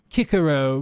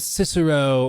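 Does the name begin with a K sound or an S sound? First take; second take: K sound; S sound. First: The name begins with a hard K sound. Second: The name begins with a soft S sound.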